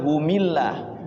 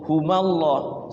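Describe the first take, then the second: First: The linking vowel after hum is i. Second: The linking vowel after hum is a. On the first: "jangan humillah"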